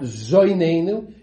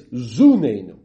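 First: The first vowel sounds like 'oi'. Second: The first vowel sounds like 'u'. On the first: It states that God sustains us. The speaker calls it wrong. "It's not zoineinu" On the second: It asks God to sustain us. The speaker calls it right. "it's zuneinu"

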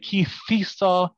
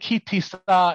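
First: The middle consonant is a soft th sound. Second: The middle consonant is a plain t sound. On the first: "If you say kithisa and you're Temonish or Tunisian, it's correct"

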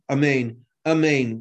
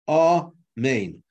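First: The opening vowel is rushed and swallowed. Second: Both syllables are said fully and distinctly. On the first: The speaker calls it wrong. "without an ah in the beginning" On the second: The speaker calls it right. "amen has to be recited as two syllables"

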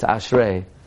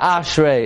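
First: The stress is on the last syllable. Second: The stress is on the first syllable. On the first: The speaker calls it right. "it's Ashrei" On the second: The speaker calls it wrong. "It's not Ashrei"

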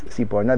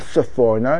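First: The second consonant is a p sound. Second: The second consonant is an f sound. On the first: It follows the yeshiva community's usage. The speaker calls it right. "and it's Siporno" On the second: It follows the English book edition's rendering. The speaker calls it wrong. "the English art scroll version"

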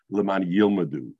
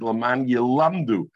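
First: The second word sounds like yilmedu. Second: The second word sounds like yelamdu. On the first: So that they themselves learn. The speaker calls it wrong. "It's not Laman Yilmadu" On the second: So that they teach others. The speaker calls it right. "The way you're going to learn the Pasuk is Laman Yilamdu"

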